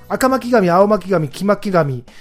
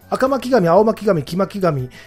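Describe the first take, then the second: The two takes are said the same way.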